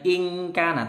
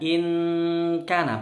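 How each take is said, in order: First: The first word ends in an ng sound. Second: The first word ends in a clear n sound. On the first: The speaker calls it wrong. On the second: The speaker calls it right. "tapi in, dibaca nunnya"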